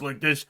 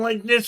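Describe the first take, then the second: First: The voice sits at its usual lower pitch. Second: The voice is raised to a higher pitch. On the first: He is speaking honestly. "his voice usually speaks like this" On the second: He is lying. "now his voice goes up"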